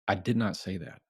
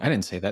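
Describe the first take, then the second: First: It is said calmly after a breath first. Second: It is said quickly and defensively with no breath. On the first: The speaker stays in control. The speaker calls it right. "when you have a breath" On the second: The reaction escalates the conflict. The speaker calls it wrong. "you immediately just boom, boom"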